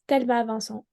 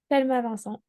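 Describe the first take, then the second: First: The name is said with a French accent. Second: The name is said with an English accent.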